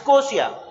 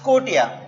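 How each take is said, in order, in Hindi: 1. बीच का व्यंजन 'sh' की ध्वनि है। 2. बीच का व्यंजन 't' की ध्वनि है। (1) "उसके बाद स्कोशिया" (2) "या इसे ही बोला जाता है स्कोटिया"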